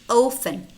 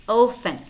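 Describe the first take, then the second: Both takes have the same delivery.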